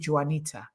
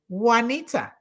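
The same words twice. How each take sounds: First: The name begins with an English J sound. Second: The name begins without an English J sound. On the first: The speaker calls it wrong. "to not say Juanita, pronouncing the J" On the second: The speaker calls it right. "Now I say Juanita"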